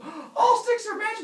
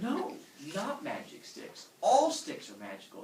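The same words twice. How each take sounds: First: Very high, loud gasp of wonder; awed excitement. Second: Patient correction. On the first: Humans misunderstand the god, thrilled shriek. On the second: God corrects the humans. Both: Acted.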